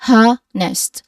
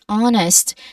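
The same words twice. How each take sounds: First: The word starts with a puff of h. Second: The word starts with a vowel, no h. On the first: The speaker calls it wrong. "We do not say honest. Like there's a push of air at the beginning" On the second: The speaker calls it right. "The H at the beginning is silent. We say honest"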